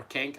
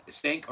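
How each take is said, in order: First: "Kenk" starting with a hard K; K pronunciation. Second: "Senk" starting with an S sound; S pronunciation. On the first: Host guessing at a viewer's name, "Kenk" with a K. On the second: Host guessing at a viewer's name, "Senk" with an S. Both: Shown as a demonstration. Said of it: "I'm not sure how you pronounce it".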